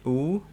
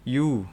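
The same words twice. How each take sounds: First: "U" as a pure vowel, no Y before it; plain U. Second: "U" said as yu, with a y glide first; U with Y added. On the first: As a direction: say "U" as a simple oo sound. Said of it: "Jadi kalau ini U". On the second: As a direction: say "U" starting from a Y sound. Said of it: "kita tinggal tambahin Y". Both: Shown as a demonstration.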